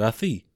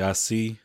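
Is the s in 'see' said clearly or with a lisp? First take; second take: lisped; clear. First: The s sound is said with a lisp. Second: The s sound is said clearly. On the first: It mocks the contestant's speech impediment. "But he said" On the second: It is a normal reply. "usually he would say"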